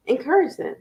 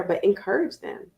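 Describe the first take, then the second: First: "Encourage" punched higher as a stand-alone command; emphatic encourage. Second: Said in the usual way. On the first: Shown as a demonstration. Host urging parents, higher, on the word Encourage. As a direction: repeat it as the key word.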